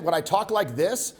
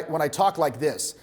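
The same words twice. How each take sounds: First: Slightly pinched, with neck tension. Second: Said in the usual way. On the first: Shown as a demonstration. Coach demonstrating a subtle shift, slightly pinched. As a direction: talk with the head pulled out of line. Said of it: "a slight shift in how my voice sounds". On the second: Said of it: "versus when I".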